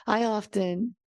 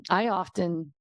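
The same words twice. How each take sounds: First: Said in the usual way. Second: Strained, failing voice; losing voice. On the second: Real, not acted. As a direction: voice cracking, going hoarse. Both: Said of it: "I'm losing my voice trying to speak this".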